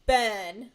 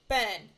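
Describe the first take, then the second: First: The word is exaggerated and very carefully articulated. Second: The word is said in a normal relaxed way. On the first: "I'm going to overpronounce it" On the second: "let's just say it the way I normally would"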